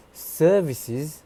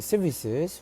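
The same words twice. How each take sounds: First: "services" higher and louder, first vowel held long; elongated vowel. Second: "services" with a short first vowel, "suh-vi-suhs"; shortened vowel. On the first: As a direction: stretch the first vowel of "services", "suuh-vi-siz". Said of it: "which is supposed to sound". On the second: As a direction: say "services" quickly clipping the first vowel, not elongated. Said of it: "instead of elongating the E sound". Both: Shown as a demonstration.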